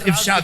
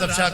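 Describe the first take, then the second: First: The word begins with an 'i' vowel. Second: The word begins with an 'a' vowel. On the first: The speaker calls it right. "असल में है राज इफ्शा करना" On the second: The speaker calls it wrong. "कहते हैं ना राज अफशा कर दिया"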